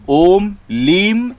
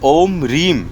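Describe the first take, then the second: First: The second word begins with an L sound. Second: The second word begins with an R sound. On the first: The speaker calls it right. "लीम है, ल ल ल ल" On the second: The speaker calls it wrong. "कई लोग गलत मंत्र उच्चारण बता देते हैं"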